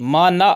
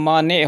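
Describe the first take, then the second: First: The word ends in the vowel a. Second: The word ends in the vowel e. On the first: The speaker calls it wrong. "नहीं होता" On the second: The speaker calls it right. "होता है"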